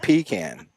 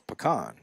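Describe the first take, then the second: First: The word starts with a 'pee' sound. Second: The word does not start with a 'pee' sound. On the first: The speaker calls it wrong. "He's like you pee in a can. You don't eat a pecan" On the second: The speaker calls it right. "So it's pecan"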